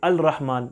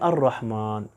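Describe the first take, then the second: First: The L sound is pronounced before rahman. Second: The L becomes R, blending into rahman. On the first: The speaker calls it wrong. "हम ऐसे नहीं पढ़ते" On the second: The speaker calls it right. "बल्कि हम पढ़ते हैं"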